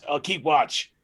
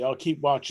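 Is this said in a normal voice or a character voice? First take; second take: character voice; normal voice. First: It is said in a put-on character voice. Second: It is said in the speaker's own normal voice.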